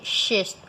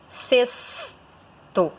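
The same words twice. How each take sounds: First: "xesto" starting with an SH sound; wrong SH pronunciation. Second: "sexto" as SES-to, with held S; slow "sexto" with a long clear S; correct S pronunciation. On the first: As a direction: say "xesto" as SHES-to. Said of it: "você não fala xe". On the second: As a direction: draw out "sexto" in two slow pieces. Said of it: "Você fala sexto". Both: Shown as a demonstration.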